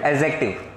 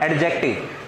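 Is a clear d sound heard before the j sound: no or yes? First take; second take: no; yes. First: No separate d sound comes before the j. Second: A distinct d sound comes before the j. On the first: The speaker calls it right. "अब बोलो एडजेक्टिव" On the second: The speaker calls it wrong. "इसमें डी नहीं आता बेटा"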